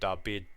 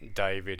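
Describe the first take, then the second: First: The middle consonant is a b sound. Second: The middle consonant is a v sound. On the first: "everyone calls it David" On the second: "David in English"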